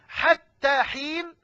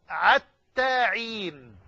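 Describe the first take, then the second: First: The words begin with a breathy h sound. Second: The words begin with a throaty ain sound. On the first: "لا يستطيعون أن ينطقوا الحاء" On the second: "فخفف هذا الحرف فقرئ عينا"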